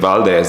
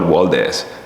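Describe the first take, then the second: First: The word begins with a V sound. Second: The word begins with a W sound. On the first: This is the standard way to say it. "Bahamians cannot pronounce the V in Valdez" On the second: This is how Bahamians say it. "They always call it Waldez"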